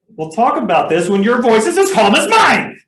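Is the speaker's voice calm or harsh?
harsh. The voice is sharp and harsh. The parent is escalating the argument. The speaker calls it wrong. "If you say it this way"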